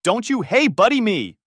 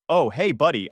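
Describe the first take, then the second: First: Much higher, louder furious yell; shouting. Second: Light, offhand friendly hello; casual greeting. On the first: Son shouting at his ex-friend at the door, furious. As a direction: throw hey buddy back in his face. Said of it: "I shouted". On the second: Zach greeting his friend at the door, casual. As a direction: greet your buddy as if nothing happened. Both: Retold or imitated.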